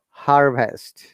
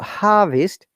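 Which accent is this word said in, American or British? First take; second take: American; British. First: It has an audible R after the vowel. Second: It has a long vowel and no R sound. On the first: "There is R, and there is short sound" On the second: "In the British accent, there is no R"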